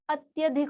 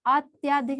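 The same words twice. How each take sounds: First: अत्यधिक with a short "tya"; correct form. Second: अत्याधिक with a long "tyaa"; wrong form. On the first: Teacher giving the right word, अत्यधिक with short middle vowel. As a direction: keep त्य short in अत्यधिक. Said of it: "अत्यधिक होता है". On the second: Teacher citing the error, अत्याधिक with long middle vowel. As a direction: lengthen the vowel of त्या in अत्याधिक. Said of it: "अत्याधिक नहीं होता". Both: Shown as a demonstration.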